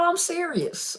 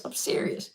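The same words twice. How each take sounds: First: Said in the usual way. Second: A soft whispered aside, much softer. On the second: Real, not acted. To chat viewers, repeating herself in a whisper. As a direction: whisper it like a secret.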